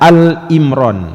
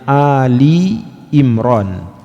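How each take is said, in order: First: 'Al' runs straight into 'Imran' with no vowel. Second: An 'i' vowel follows 'Al' before 'Imran'. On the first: The speaker calls it wrong. "jangan sampai dibaca Al Imran" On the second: The speaker calls it right. "Ini bukan Al Imran tapi Ali Imran"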